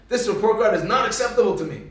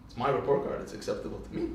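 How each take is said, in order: First: Mildly stern mother, emphatic; stern disapproval. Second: Low, soft, deadpan reply; offhand comeback. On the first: Mother to Moshe about report card, stern disapproval. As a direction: lay down the law to a child. Mother retells scolding her son. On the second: Young Moshe answers mother about report card, offhand comeback. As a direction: answer back quietly, fading away. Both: Retold or imitated.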